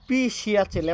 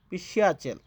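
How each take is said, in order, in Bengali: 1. প্রথম শব্দাংশে ভারী জোর দেওয়া হয়। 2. প্রথম শব্দাংশ শুধু হালকাভাবে ছোঁয়া হয়। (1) "পির উপরে কঠিন একটা ভর দিয়ে বলে না" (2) "পি হালকা টাচ করে বলবেন শিয়াচেল, পিসিয়াচেল এইভাবে বলবেন"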